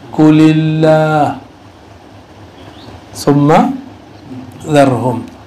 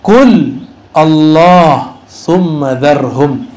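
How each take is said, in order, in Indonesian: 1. Qul dan Allah disambung jadi satu kata. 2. Qul dan Allah dibaca terpisah. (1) "Kalau dibaca versi Quran" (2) "Ini kalau dibaca terpisah"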